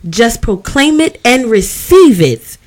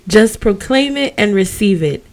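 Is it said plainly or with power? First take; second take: with power; plainly. First: It is said with power and authority. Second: It is said plainly, without force.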